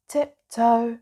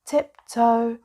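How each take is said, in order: Both takes have the same delivery.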